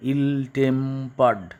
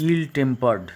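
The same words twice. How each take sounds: First: ইল tempered slowly, in three stretched syllables. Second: Said in the usual way. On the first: Shown as a demonstration. Teacher showing three syllables, ইল tempered slow and divided. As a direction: draw out each part of ইল tempered, il-tem-pered. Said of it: "তাহলে এখানে তিনটে syllable". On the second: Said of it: "তিনটে syllable".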